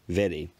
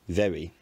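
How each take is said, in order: First: The r is a quick tongue tap. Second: The r is made with lip and teeth. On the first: "the tapping" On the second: "a labiodental approximant"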